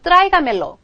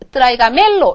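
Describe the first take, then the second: First: The stress falls on the first syllable. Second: The stress falls on a later syllable. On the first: The speaker calls it right. "원래 맨 처음에 있었던 곳에 그대로 읽어주세요" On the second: The speaker calls it wrong. "원래의 아센토 법칙에 따르게 되면 여기에 아센토를 넣어서"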